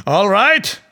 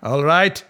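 First: Higher and louder, sneering rise on right; mocking. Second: A lighter sneer, rising on right; mild mocking. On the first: Duryodhana taunting Draupadi, loud sneering. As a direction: toss it off with a jeering lilt. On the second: Duryodhana repeating his taunt, milder sneer. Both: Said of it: "Duryodhana laughed at Draupadi and said".

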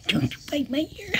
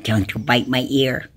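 First: Squeaky high, soft and quick. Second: Said in the usual way. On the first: Real, not acted. Owner scolding the cat playfully, squeaky baby voice. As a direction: coo it at the cat in a tiny voice.

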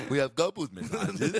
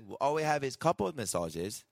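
First: Bad Mexican accent, laughing. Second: Bad Mexican accent. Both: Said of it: "that was a terrible fucking Mexican".

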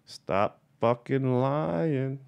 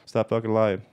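First: Very slow and higher, with "lying" stretched long; drawn-out catchphrase. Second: Said in the usual way. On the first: Acted. Dictating the subject line to viewers, slow drawn-out catchphrase. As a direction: space out the words and sing-song "lying".

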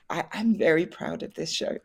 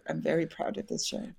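First: Said in the usual way. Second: Softer heartfelt repeat, stress on very; sincere. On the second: Real, not acted. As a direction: say it again softly, meaning it. Repeats pride in the show.

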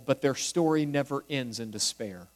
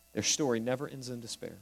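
First: Said in the usual way. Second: Softer, faster echo of the line; quiet repeat. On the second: Shown as a demonstration. Preacher repeats the point to the congregation, softer and quicker. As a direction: let it sink in, softly and quickly.

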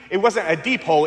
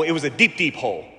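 First: Said in the usual way. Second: Deep, deep said twice, slowing and dropping on the second; stress on deep. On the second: Shown as a demonstration. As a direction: lean on the doubled deep, fading softer.

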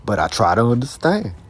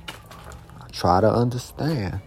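First: Said in the usual way. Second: "I try to understand" said slowly and much softer; slow quiet resolve. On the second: Real, not acted. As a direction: ease down, almost to himself. Slow soft repeat of resolve.

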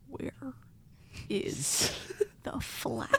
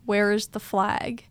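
First: Slow whisper, long gaps between words; eerie sleep-talk whisper. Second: Slow, evenly voiced question; retold sleep-talk. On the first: Retold or imitated. Sleep-talking to Leah at night, slow eerie whisper. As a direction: whisper it haltingly, imitating a sleep-talker. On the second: Waking somebody up with a nonsense question, slow and voiced. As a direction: ask it slowly, fully voiced. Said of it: "I woke somebody up being like".

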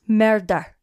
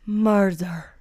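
First: Forensic Files narrator. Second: Scottish-tinged "Murder." dragged out long; Forensic Files narrator. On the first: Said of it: "say it like fucking Forensic Files". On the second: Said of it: "the way he drags it out". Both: Retold or imitated.

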